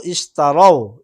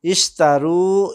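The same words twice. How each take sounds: First: "ইশতারাও" loudly, closing in an ao glide; ao ending. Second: "ইশতারু" slowly, with a long closing oo; drawn-out u ending. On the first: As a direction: punch "ইশতারাও" as is-ta-rao, falling. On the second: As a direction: stretch "ইশতারু" loudly to is-taa-roo. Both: Shown as a demonstration. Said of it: "আমি আরেকবার বলছি".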